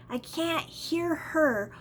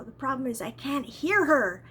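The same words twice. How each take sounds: First: "I can't hear her" said slowly, each word weighted; slow emphatic repeat. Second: Said in the usual way. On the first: Shown as a demonstration.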